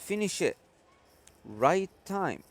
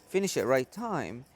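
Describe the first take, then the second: First: There is a long pause after "finish it." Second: It is said straight through without a pause. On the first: The speaker calls it wrong. "here I stopped like along" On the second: The speaker calls it right. "You say finish it right time"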